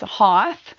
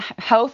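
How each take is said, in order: First: The vowel does not rhyme with both. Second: The vowel rhymes with the word both. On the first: The speaker calls it wrong. "you might pronounce it as Hoth" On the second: The speaker calls it right. "Hoth like both"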